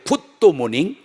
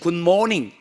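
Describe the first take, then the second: First: An extra 'do' syllable is inserted mid-word. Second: It is said as a plain two-part greeting. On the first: The speaker calls it wrong. "도자를 넣고 지나가야 됩니다" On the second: The speaker calls it right. "그 쉬운 굿모닝"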